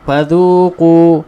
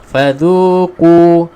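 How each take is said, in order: The two takes are said the same way.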